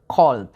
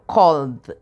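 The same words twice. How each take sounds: First: Cold said with a big, round O held open. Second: Cold said with a long, round O; cold with a big open O, "kould"; pronunciation of cold. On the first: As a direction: stretch the O in cold wide and round. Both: Shown as a demonstration. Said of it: "pronúnciala con una O así grandota".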